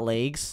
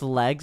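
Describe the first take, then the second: First: The word is said with a Minnesota accent. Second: The word is said with a standard accent. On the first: The speaker calls it wrong. "not legs" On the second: The speaker calls it right. "it's pronounced legs"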